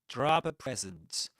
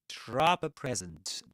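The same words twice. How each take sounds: Both takes have the same delivery.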